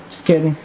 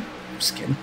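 First: Said in the usual way. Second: Whispered. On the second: Real, not acted. Whispered aside after joke.

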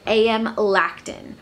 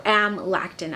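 First: "A M Lactin" with A and M as two separate letters; spelled-out first syllable. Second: "Amlactin" run together, starting like the word "am"; first syllable as word. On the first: Unsure how a lotion's name is said, "A M Lactin" with the letters spelled out. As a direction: say "A M Lactin" as letter names A, M, then Lactin. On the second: Offering another way to say a lotion's name, "Amlactin" blended as one word. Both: Shown as a demonstration. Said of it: "not sure how to say it".

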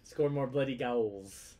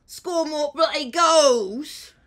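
First: Half-hearted, slow hooligan chant; football hooligan. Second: Loud, slow British hooligan roar; football hooligan. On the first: Acted. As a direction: attempt a British football fan, drawn out. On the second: Shown as a demonstration. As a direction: bellow it like a football fan, high and drawn out. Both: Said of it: "you do the football hooligan".

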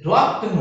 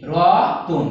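First: Said in the usual way. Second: রতন slowly split, with a vowel parting the cluster; রতন pronounced slowly with the joined consonants pulled apart; cluster broken by vowel. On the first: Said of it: "সংযুক্ত ব্যঞ্জন ধ্বনি". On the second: Shown as a demonstration. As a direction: draw out রতন in separate syllables, vowel inserted before the n. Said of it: "ভাঙতে যাব উচ্চারণ করতে যাব".

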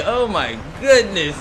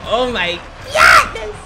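First: Slow, drawn-out exclamation; astonished. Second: Slow start bursting into high scream; shrieked astonishment. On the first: Gamer amazed by slippery escape, astonished. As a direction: draw out GOODNESS in amazement. First reaction, then screamed repeat. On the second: Gamer amazed by slippery escape, shrieked astonishment. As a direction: explode on GOODNESS in a high shriek. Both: Pretend.

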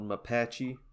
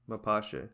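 First: "Mapache" ending in -chee, Americanized; anglicized pronunciation. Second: "Mapache" as muh-PAH-shay; "Mapache" with an AY ending, Spanish-leaning; corrected pronunciation. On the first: Real, not acted. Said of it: "I'm probably saying it like a redneck". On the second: Shown as a demonstration. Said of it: "It's probably like Mapache then".

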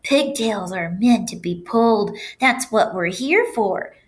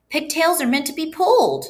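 First: Drawn-out, coaxing assertion; persuading pigtail. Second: High-pitched, emphatic declaration; confident conclusion. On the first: Pigtail convincing the boy to pull, persuasive. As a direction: make the case, slowing toward the end. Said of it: "said the pigtail". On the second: Boy justifying himself to teacher, emphatic conclusion. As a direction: declare it high, lifting the key words. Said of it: "Paul concluded". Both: A narrator's reading.

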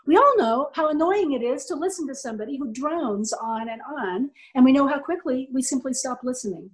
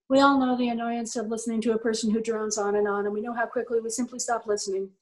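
First: Varied pitch, words shaped; lively inflection. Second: Flat drone, no inflection; droning monotone. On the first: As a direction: speak it with clear melody. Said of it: "What just happened". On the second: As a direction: drone on without any melody. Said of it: "That's really terrible. I shouldn't talk to you like that". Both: Shown as a demonstration.

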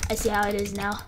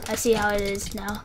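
No difference in how they are said.

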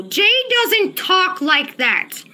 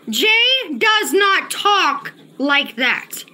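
First: Slow, firm stress on "doesn't talk"; emphatic denial. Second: Very slow, pauses splitting "does not / talk / like that"; word-by-word insistence. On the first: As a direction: insist with a drawn-out "doesn't talk". Insisting a chatter is fake. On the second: Repeats denial word by word. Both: Real, not acted.

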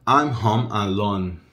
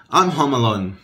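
First: I'm home alone, slowly, word by word; slow modelling. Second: Said in the usual way. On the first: Shown as a demonstration. Teacher models home alone for learners, slow modelling. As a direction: stretch out HOME and ALONE separately. Same phrase slowed down.

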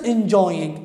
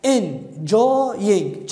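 First: Said in the usual way. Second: "enjoying" broken into three beats, en, jo, ying; syllable by syllable. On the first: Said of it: "أنقر وياها". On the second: Shown as a demonstration. Teacher counting syllables for students, "enjoying" in separated beats. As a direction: sound out "enjoying" with a gap after each syllable. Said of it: "كم مقطع؟".

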